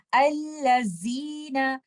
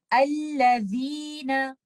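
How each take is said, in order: First: अल्लज़ीना with a buzzing ज़ा, tongue kept in, slow; wrong way: plain z in अल्लज़ीना; tongue inside. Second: अल्लज़ीना with ज़ाल, tongue tip between teeth, slow. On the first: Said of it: "आवाज ऐसी होगी". (अल्लज़ीना, ज़ुबान अंदर, गलत) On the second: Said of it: "आप इसको इस तरह से पढ़ेंगे". (अल्लज़ीना, ज़ुबान की नोक बाहर) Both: Shown as a demonstration.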